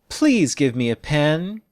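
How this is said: The voice falls on please, then rises at the end. The request sounds sad and desperate. "By falling on please and rising at the end"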